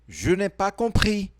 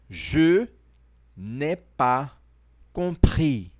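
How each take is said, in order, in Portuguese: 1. É dita num ritmo mais rápido. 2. É dita num ritmo mais lento.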